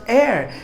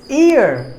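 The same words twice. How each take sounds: First: "air" with the open vowel of air; wrong vowel AIR. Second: "ear" with a long ee before the r; correct vowel EAR. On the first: Teacher showing learners how not to say ear, mispronounced "air". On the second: Teacher correcting learners on the word, correctly pronounced "ear". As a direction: say "ear" starting on a clear ee. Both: Shown as a demonstration. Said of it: "it's not air".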